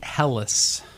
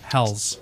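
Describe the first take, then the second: First: The word is said as two syllables. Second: The word is said as one syllable. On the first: The speaker calls it wrong. "I've always pronounced it Hellas" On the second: The speaker calls it right. "they said Hell's"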